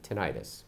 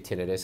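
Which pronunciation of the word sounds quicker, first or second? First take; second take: second; first. First: The word is pronounced in the slower way. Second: The word is pronounced in the quicker way. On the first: "quicker than tinnitus" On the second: "I say tinnitus because, frankly, you can say it quicker"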